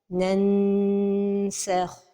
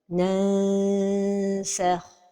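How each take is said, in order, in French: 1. Le n est bien prononcé, avec contact de la langue. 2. Le n est trop affaibli, il sonne ouvert. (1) "toucher le palais supérieur avec le bout de la langue" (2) "trop éloigner la langue du palais supérieur"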